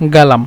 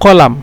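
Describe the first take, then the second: First: The word starts with a g sound. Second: The word starts with a q sound. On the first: This is the Saudi regional form. "সৌদিরা বলে গালাম" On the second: This is the standard form. "শুদ্ধ ভাষা হলো কলাম"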